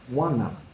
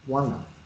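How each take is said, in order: First: The words are blended into one short form. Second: The same.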